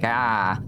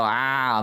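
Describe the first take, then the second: First: A second "ah" held open in the back of the mouth; "ah" pulled back, Boston style; "ah" in a mild Boston accent. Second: A drawn-out "Ah" from the back of the throat; "Ah" in a light Boston accent. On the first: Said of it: "you gotta ah in the back". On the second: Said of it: "with your ahs". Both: Shown as a demonstration.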